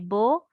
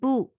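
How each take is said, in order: First: The vowel sounds like 'oh'. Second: The vowel sounds like 'oo'. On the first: The speaker calls it wrong. "which is incorrect" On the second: The speaker calls it right. "which is correct"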